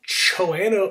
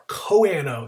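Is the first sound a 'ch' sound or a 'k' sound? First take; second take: ch; k. First: It begins with a 'ch' sound. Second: It begins with a 'k' sound. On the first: The speaker calls it wrong. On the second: The speaker calls it right.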